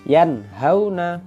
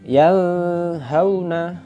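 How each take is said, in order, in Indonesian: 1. Bunyi n diucapkan dengan jelas. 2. Bunyi n menyatu dengan bunyi berikutnya. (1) "Ini juga begitu"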